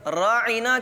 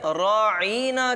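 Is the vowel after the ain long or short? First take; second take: short; long. First: The vowel after the ain is short. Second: The vowel after the ain is long. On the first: Please have regard for us. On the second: Our shepherd.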